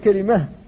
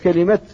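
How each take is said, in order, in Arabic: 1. تنتهي الكلمة بصوت الهاء. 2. تنتهي الكلمة بصوت التاء. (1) "ولا يجوز أن تقول كلمة بالهاء" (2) "فقلت وتمت كلمة"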